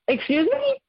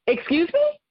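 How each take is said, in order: First: Much higher, pushed harder; the second, sharper excuse me; outraged excuse me. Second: Higher, rising excuse me; affronted disbelief; first shocked excuse me, rising; indignant excuse me. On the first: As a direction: disbelief boiling over. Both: Retold or imitated. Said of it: "I was furious".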